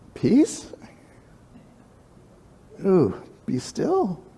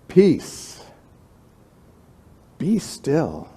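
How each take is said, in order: First: It is said timidly, without authority. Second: It is said firmly, with authority.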